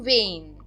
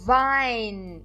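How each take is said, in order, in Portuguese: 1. A vogal soa como 'ay'. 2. A vogal soa como 'eye'. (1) "e não" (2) "eu estou pronunciando as vogais E, I como A, I"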